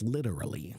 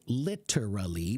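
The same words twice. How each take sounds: First: The middle consonant is a soft D sound. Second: The middle consonant is a clear T sound.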